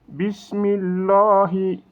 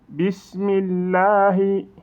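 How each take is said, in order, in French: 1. Le L dans Allah est lourd et emphatique. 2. Le L dans Allah est léger et fin. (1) "au lieu de" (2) "il faut dire de manière légère le mot Allah"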